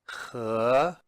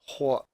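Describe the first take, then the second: First: The syllable carries a full tone. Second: The syllable is said in the neutral tone. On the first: It means and. "we've learned that previously as 和" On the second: It is the second syllable of the word for warm. "或 in the neutral tone"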